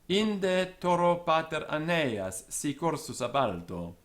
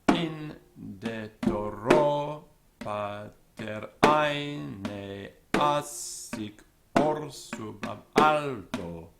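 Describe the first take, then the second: First: Stress falls on each word's natural accented syllable. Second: Stress falls on the metrical beats, sounding mechanical.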